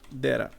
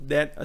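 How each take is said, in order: First: The two words run together as one. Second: The two words are said separately. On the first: "juntar esse that a e vai ficar um data" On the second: "você pode pronunciar pausado"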